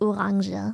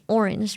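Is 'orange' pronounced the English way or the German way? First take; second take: German; English. First: It is pronounced with a German accent. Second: It is pronounced with an English accent. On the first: "We call it orange. We may have taken the English word and literally just pronounced it German" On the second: "we don't call an orange orange"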